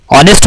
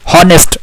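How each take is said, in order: First: ऑनेस्ट with a silent h, starting on the open vowel ऑ; correct pronunciation. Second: हॉनेस्ट said with a clear h sound at the start, hō-nest; wrong pronunciation. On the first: Teacher giving students the right ऑनेस्ट, silent h. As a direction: drop the h in ऑनेस्ट and begin straight on the vowel. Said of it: "ऑनेस्ट होता है". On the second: Teacher showing students the wrong हॉनेस्ट, h clearly sounded. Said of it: "हॉनेस्ट नहीं होता". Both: Shown as a demonstration.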